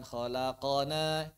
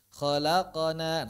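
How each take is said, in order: First: Khalaqana with a full vowel after q; khalaqana, q carrying a whole vowel; full fathah. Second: Khalaqana with only a bounce after q; slow khalaqana, short release on q; sukun with echo. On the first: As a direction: model khalaqana with a clear "qa". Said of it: "fathah dia". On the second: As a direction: model khalaqana with q vowelless and echoed. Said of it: "nah, ya, sukun". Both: Shown as a demonstration.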